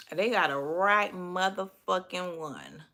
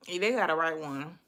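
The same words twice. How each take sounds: First: "right motherfucking one" stretched out slowly; drawn-out emphasis. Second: Said in the usual way. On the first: Real, not acted. Warning critics they picked wrong, slow stress on "right motherfucking one".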